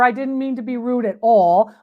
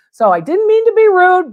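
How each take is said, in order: First: Said in the usual way. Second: "rude" said higher and louder, pressing the point; emphatic repeat. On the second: Real, not acted. Appraiser insisting to a viewer she wasn't rude, raised and louder. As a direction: insist on it, pitch up and louder on "So I didn't mean to be rude".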